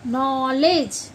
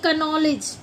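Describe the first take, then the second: First: The word starts with an n sound. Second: The word starts with a k sound. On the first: The speaker calls it right. "के silent होगा" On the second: The speaker calls it wrong. "ना कि"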